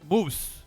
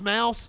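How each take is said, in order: First: The vowel sounds like the one in 'goose'. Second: The vowel sounds like the one in 'house'. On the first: "like a German, like moose" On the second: "it's pronounced mouse?"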